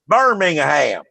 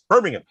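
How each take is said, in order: First: Every syllable is said fully, Southern US style. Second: The syllables are clipped short, English style.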